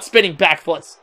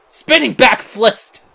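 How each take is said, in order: First: Said in the usual way. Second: "Spinning back flist" drawn out slowly; slow, deliberate repeat of "Spinning back flist"; mocking own slip. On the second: Real, not acted. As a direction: savour the slip "flist" slowly, then laugh.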